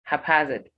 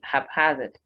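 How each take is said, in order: First: The stress is on the second syllable. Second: The stress is on the second syllable.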